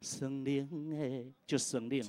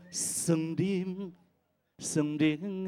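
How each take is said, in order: First: "省令" glided over, softly, no weight; light touch. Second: "省令" bitten down hard and pushed; heavy stressed demo. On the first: Judge showing the singer how to pass lightly over "省令". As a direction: brush past "省令" lightly. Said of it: "轻轻带过". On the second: Judge showing the singer the over-stressed "省令". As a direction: lean hard on both syllables of "省令". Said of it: "诶，不用这样". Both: Shown as a demonstration.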